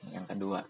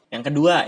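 First: "kedua" dropped soft and low; quiet repeat. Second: "kedua" called out loud; loud announcement. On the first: Repeating his second point to himself, quiet. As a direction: mutter "kedua" softly. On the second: Opening his second point for viewers, called out loud. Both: Real, not acted. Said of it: "yang kedua nih".

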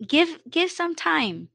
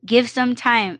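First: Softer, higher. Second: Said in the usual way. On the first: Real, not acted.

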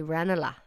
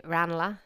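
First: "Ranelagh" with an e, REN-uh-la; old locals' pronunciation. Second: "Ranelagh" with a flat a, RAN-uh-la; own pronunciation. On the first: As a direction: say "Ranelagh" starting like "wren". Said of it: "originals, I feel, would say". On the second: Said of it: "I would say". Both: Shown as a demonstration.

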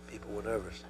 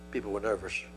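First: Hushed aside. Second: Said in the usual way. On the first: Real, not acted.

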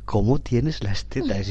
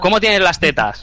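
First: "¿Cómo tienes las tetas?" slow, falling, like a statement; flat statement. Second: "cómo tienes las tetas" slowed, with a questioning tune. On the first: Showing how the question sounded misleading, flat and slow. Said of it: "Eso, eso inducía error". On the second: Showing friends it was a question, slow questioning tune. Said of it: "Con entonación interrogativa". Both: Shown as a demonstration.

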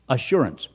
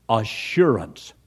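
First: Said in the usual way. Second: "assurance" drawn out slowly, lower, as a key word; emphasized key word. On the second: Shown as a demonstration. Preacher highlighting "assurance" to the congregation, slow stress. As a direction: lean on "assurance" slowly, savoring it. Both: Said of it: "here's another great word".

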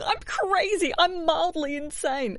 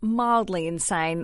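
First: High, put-on mimicry of "I'm crazy, I'm mildly insane", slow on "mildly insane"; a much higher sing-song sneer of "I'm mildly insane"; mocking quirky voice. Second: Said in the usual way. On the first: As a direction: parody the people who call themselves quirky. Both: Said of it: "I hate people going".

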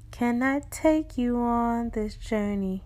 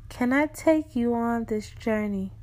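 First: Slowed, deliberate invitation. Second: Said in the usual way. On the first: Acted. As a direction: draw out "Can I take you on this journey". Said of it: "repeated invitation, slowed". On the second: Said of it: "repeated invitation".

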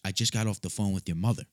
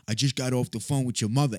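First: Said in the usual way. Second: Higher, put-on needling voice; pointed tone. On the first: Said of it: "in a tone of voice in which he said". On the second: Caller tells the kid about his mother, pointed imitation. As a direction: lightly imitate a provoking caller. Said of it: "And in a tone of voice in which he said".

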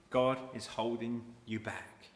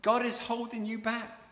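First: Said in the usual way. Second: "God is holding you back" said higher and firmer; stronger take. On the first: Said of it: "Satan is saying". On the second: Shown as a demonstration. Preacher giving Satan's claim more force. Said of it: "Satan comes right in".

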